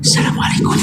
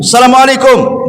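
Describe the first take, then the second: First: It is said quietly, barely audible. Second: It is said loudly and clearly. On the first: Others cannot hear the greeting. The speaker calls it wrong. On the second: Others can hear the greeting. The speaker calls it right. "kencangkan kalau salam itu"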